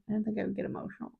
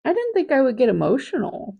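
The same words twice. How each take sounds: First: Rattled off softly and fast, under the breath; quick quiet mutter. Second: Said in the usual way. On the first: Real, not acted. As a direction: say it again to yourself, fast and hushed. Repeats line, second time muttered.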